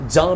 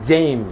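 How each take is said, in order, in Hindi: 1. स्वर एक लंबी खुली 'aa' ध्वनि है। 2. स्वर एक सपाट आगे वाली 'a' ध्वनि है। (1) "जाम is a British pronunciation" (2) "American pronunciation is जैम"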